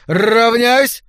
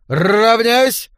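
First: Shouting drill command, louder. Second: Shouting drill command. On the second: Command repeated after Отставить. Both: A narrator's reading.

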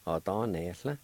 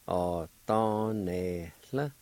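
First: "Ó Dán Néathla" run together as one word; joined-up pronunciation. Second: "Ó Dán Néathla" drawn out slowly, syllables held apart. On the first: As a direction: say "Ó Dán Néathla" connected, without gaps between syllables. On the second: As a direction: stretch each syllable of "Ó Dán Néathla" for learners. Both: Shown as a demonstration. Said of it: "is pronounced like this".

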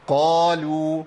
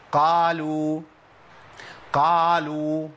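First: Drawn-out قالوا with a heavy, rounded ق and lips kept close; partly opened qaf. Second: Sustained قالوا with the mouth opened fully, thinning the ق; over-opened qaf. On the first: Teacher corrects the class, partly opened qaf. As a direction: chant قالوا slowly, full dark qaf, partial opening. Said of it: "يبقى انفتاح عندي إيه؟". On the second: Teacher imitates students' mistake, over-opened qaf. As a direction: chant قالوا on one note with a too-wide open qaf. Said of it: "بيعمل انفتاح كلي". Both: Shown as a demonstration.

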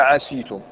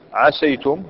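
First: "عسيتم" with a long ee after the seen, "aseetum"; "عسيتم" pronounced a-SEE-tum; kasra on seen. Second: "عسيتم" with an open a after the seen, "asaytum"; "عسيتم" pronounced a-SAY-tum, seen opened; fatha on seen. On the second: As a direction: say "عسيتم" with fatha on السين, gliding into "ay". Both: Shown as a demonstration. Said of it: "جواز كسر السين وفتحها".

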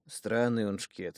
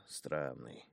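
First: Странный slow and weighty, falling; stressed Странный. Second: Странный much softer and lower, trailing; muttered. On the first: Thug muses about the boy, slow stress on Странный. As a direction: lean on Странный slowly. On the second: Thug muses about the boy, Странный muttered low and soft. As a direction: murmur Странный to himself. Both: Acted. Repeated word, different takes.

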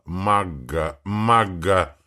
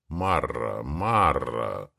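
First: Магга with a throaty French R; burred R. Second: Said in the usual way. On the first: Shown as a demonstration. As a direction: roll Марра as Магга, guttural R. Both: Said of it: "попытался прокартавить я".

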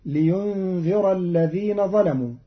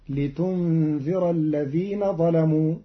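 First: Said in the usual way. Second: لتنذر بالتاء المضمومة بدل الياء ببطء; ابدأ لتنذر بتاء الخطاب. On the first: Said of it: "قرأ قالون كلمة لينذر". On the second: Shown as a demonstration. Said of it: "بتاء الخطاب". (قراءة قالون لتنذر بالتاء)

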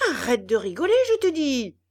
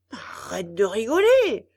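First: Loud threatening yell, rising on je te dis; menacing yell. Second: Loud angry scold. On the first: Geppetto yelling a threat at the puppet mouth, menacing. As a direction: yell it as a final warning. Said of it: "hurla Geppetto d'une voix menaçante". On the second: Geppetto scolding the laughing puppet mouth, angry. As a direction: tell the laughing mouth off hard. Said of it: "gronda Geppetto". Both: A narrator's reading.

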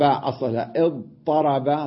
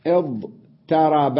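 First: Said in the usual way. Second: اضطرب drawn out very slowly; slow root demo. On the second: Shown as a demonstration. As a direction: stretch اضطرب to show the root. (نطق اضطرب ببطء شديد)

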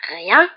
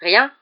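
First: Loud, disbelieving "Rien?"; barked echo. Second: Said in the usual way. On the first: A narrator's reading. Caretaker throws the pupil's answer back at him, barking. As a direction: bark it back as a question. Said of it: "aboya Rusard". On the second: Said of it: "répondit Harry".

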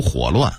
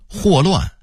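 First: 霍乱 as 火乱, huǒluàn; dipping third tone on the first syllable of 火乱; Beijing reading. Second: Said in the usual way. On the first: Shown as a demonstration. Narrator contrasting word lists, Beijing reading. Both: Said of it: "北京话读火乱".

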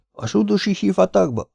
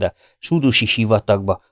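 First: Very high, aghast incredulous question; horrified echo. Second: Said in the usual way. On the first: A narrator's reading. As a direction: repeat it high-pitched in disbelieving dread. Ahmed's horrified echo of the threat. (elszörnyedve, magas hangon visszakérdezve)

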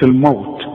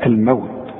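First: الموت with a heavy و, the wrong way; mock wrong reading. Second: الموت with a thin و, said softly; light wau. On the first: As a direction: say الموت with a thick و. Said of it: "ما تقولش". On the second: Shown as a demonstration. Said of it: "ورقق برضو الواو".

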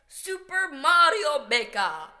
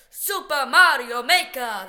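First: Clumsy game-announcer accent on Super Mario Maker; bad accent. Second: Loud, booming game announcer calling "Super Mario Maker". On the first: Announcing the game title, a bad accent. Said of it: "I said that in a very bad accent". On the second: Announcing the game title like the in-game voice. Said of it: "sounds a lot more like what it sounds like in the game". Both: Shown as a demonstration.

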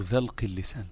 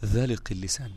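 First: ذلق said "dhalq", no vowel after the l; second variant of the word. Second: ذلق said "THA-liq", vowel after the l; first variant of the word. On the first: Teacher offering students the alternative reading, ذلق voiced as "dhalq". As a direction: run l into q in ذلق, one syllable "dhalq". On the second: Teacher giving students the first reading of the term, ذلق voiced as "dhaliq". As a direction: say ذلق in two syllables, "dhaliq". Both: Shown as a demonstration. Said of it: "أو ذلق اللسان".

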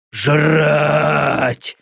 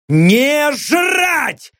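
First: Demon voice. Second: High sharp bark of a shout; barked refusal. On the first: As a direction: drone it like a hungry beast. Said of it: "звучало в голове тупое, монотонное повторение". (голос демона, тупой и монотонный) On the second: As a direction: snap the order back hard. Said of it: "снова рявкнул Лёха". (резкий рявкающий крик) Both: Acted.

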